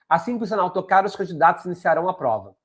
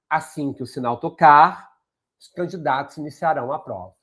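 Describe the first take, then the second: First: It is read quickly without a pause after tocar. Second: It is read with a pause after tocar. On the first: The speaker calls it wrong. "Corrido, né? Rápido" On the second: The speaker calls it right. "se eu coloco a vírgula, olha como fica o entendimento melhor"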